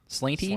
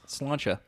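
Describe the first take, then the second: First: The word ends with a 'tee' sound. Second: The word ends with a 'cha' sound. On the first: The speaker calls it wrong. "it looks like slaint, slainty" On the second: The speaker calls it right. "but it's pronounced Slancha"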